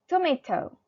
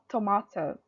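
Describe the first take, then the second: First: The word is said with an American pronunciation. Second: The word is said with a non-American pronunciation. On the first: "in U S A, they pronounce tomato as tomato" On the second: "not tomato"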